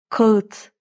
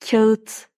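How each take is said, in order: First: The k and a are hard and back. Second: The k and a are soft and fronted. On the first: The speaker calls it wrong. "Kaba değil mi?" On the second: The speaker calls it right. "bir önceki sessizin de inceldiğine dikkat edin"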